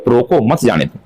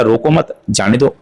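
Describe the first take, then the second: First: रोको set apart, then मत जाने दो as one group; रोको alone, मत जाने दो together; pause after रोको. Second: रोको मत together, a break, then जाने दो; रोको मत as one group, जाने दो apart; pause after मत. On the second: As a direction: join मत to रोको and stop before जाने दो. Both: Shown as a demonstration. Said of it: "दोनों का अर्थ बदल जाएगा".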